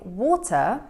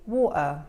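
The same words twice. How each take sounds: First: The middle T is clearly pronounced. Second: The middle T is replaced by a throat stop. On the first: "instead of saying water" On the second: "Glottal T ... where you don't hear the T"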